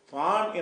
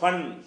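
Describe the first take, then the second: First: The vowel is drawn out long. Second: The vowel is kept short. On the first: The alif is being read. The speaker calls it wrong. "ஃபான் என்று சொல்லாமல்" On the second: The alif is not being read. The speaker calls it right. "ஃபன்னு சொன்னீங்கன்னா அலிஃபை வாசிக்கலன்னு அர்த்தம்"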